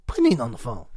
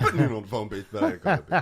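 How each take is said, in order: First: Chuckling through the line; laughing as he repeats the joke. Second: Louder laughing through the words; cracking up hard on the punchline. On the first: Cohost laughing while repeating the phone call gag. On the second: Host laughing loudly as he tops the phone call gag. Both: Real, not acted.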